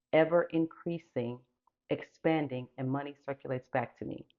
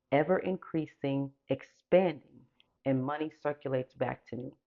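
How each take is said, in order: No difference in how they are said.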